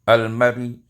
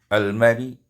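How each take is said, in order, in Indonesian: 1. Kata itu diakhiri dengan vokal samar dan pendek. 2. Kata itu diakhiri dengan vokal samar dan pendek.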